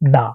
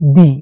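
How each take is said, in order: First: The vowel sounds like a short 'uh'. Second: The vowel sounds like a long 'ee'. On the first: The next word starts with a consonant. "এই দির উচ্চারণ হবে হলো দা" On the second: The next word starts with a vowel. "অর্থাৎ হলো দি"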